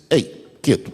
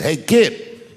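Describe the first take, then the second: First: Gently. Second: Put-on a louder, rising "Hey, kid," like a producer barking a kid down; mock stern call. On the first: Retold or imitated. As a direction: ease "Hey, kid," down gently with a falling tune. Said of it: "he stopped me gently". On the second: Producer tells kid to sit.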